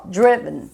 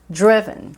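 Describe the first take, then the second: Both takes have the same delivery.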